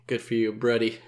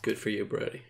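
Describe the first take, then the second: First: Said in the usual way. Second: Flat sarcastic mutter. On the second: Shown as a demonstration.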